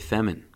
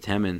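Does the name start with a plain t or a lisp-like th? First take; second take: lisp-like th; plain t. First: The name begins with a lisp-like th sound. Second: The name begins with a plain t sound. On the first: The speaker calls it wrong. "it sounds like I have a lisp" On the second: The speaker calls it right. "some people pronounce it Temin"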